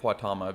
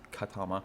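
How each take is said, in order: First: The name begins with a kw sound. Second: The name begins with a plain k sound. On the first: This is how locals say it, reading it as English. "they say it Quatama because the fact it's Q U and it's English" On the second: This treats the name as Latin or Spanish. "I would say Ka because it's probably Latin slash Spanish"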